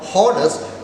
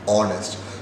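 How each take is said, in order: First: The word starts with an H sound. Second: The word starts without an H sound. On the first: The speaker calls it wrong. "it is not honest" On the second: The speaker calls it right. "the H is silent here. We pronounce it as only as honest"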